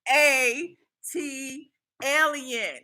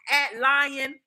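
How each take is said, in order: First: Letters A and T, then the word alien. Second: Said as one word ending in lion. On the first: The speaker calls it right. "how to pronounce it" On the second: The speaker calls it wrong. "not at lion"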